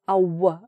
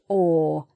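First: The vowel ends with a w glide. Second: The vowel is plain with no w glide. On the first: The speaker calls it wrong. "we don't say w" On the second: The speaker calls it right. "It's just or"

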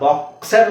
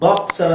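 First: The stress is on the second syllable. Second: The stress is on the first syllable. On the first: The speaker calls it wrong. "Boxer ಅಂತ ಹೇಳ್ತಾ ಇಲ್ಲ" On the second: The speaker calls it right. "Boxer ಅಂತ ಹೇಳ್ತಾ ಇದ್ದೀನಿ"

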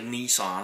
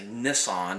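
First: The first vowel sounds like 'ee' in knee. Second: The first vowel sounds like 'i' in miss. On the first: The speaker calls it wrong. "I don't say Nissan" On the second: The speaker calls it right. "There's no E in there, so ... I say Nissan"

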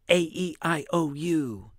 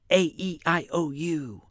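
No difference in how they are said.

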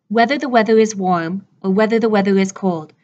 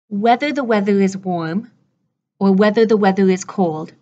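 First: The sentence is spoken faster. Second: The sentence is spoken slowly. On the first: "and then we'll go faster" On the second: "Let me say it for you slowly"

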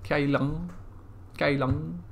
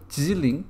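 First: The name is said in Cantonese pronunciation. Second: The name is said in Mandarin pronunciation. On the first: "Kylin, I assume, is how you say it in Cantonese" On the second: "Jiling is the Mandarin word"

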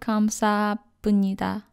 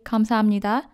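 First: The consonant before the last syllables is p. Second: The consonant before the last syllables is m. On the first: The speaker calls it wrong. "instead of 감사합니다" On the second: The speaker calls it right. "That's why we say 감사합니다"

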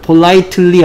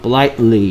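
First: It is pronounced in a Korean-style way. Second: It is pronounced the native English way. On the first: The speaker calls it wrong. "politely 안하고" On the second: The speaker calls it right. "외국 애들은 politely 이릅니다"

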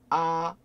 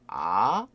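First: The pitch stays high, level and long. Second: The pitch rises from mid to high. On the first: "그러면 길게 아, 아, 이게 1성이 되겠죠" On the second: "아 하고 올라가죠"

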